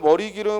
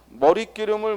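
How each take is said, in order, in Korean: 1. '리' 뒤의 'g' 소리는 예사소리입니다. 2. '리' 뒤의 'g' 소리는 된소리입니다.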